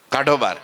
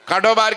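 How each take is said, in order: First: Laughing. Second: High, loud command to throw them out; shouted order. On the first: Narrator repeating husband's order, laughing. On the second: Husband ordering the sadhus out, loud shout. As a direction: bark the order, raised and harsh. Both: Retold or imitated.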